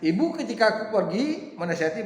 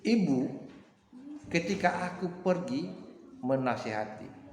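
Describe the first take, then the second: First: There is no pause after the first word. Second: There is a pause after the first word. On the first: The mother is the one who goes advising. The speaker calls it wrong. "kalau saya ucapkan ibu ketika aku pergi menasihati berarti ibu ketika dia yang pergi menasihati" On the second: The speaker is addressing the mother. The speaker calls it right. "Kenapa saya ucapkan seperti itu?"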